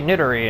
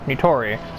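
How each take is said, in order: First: The middle consonant is a d sound. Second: The middle consonant is a t sound. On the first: The speaker calls it wrong. "I sometimes say Nidori" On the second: The speaker calls it right. "instead of Nitori"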